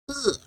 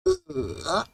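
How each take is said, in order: First: The syllable is said with the fourth tone. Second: The syllable is said with the third tone. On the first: "Fourth tone" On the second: "Third tone"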